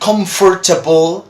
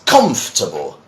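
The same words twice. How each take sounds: First: The word is said long, with every syllable. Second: The word is said short, with syllables reduced. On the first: The speaker calls it wrong. "as many people try to say" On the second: The speaker calls it right. "It's shorter"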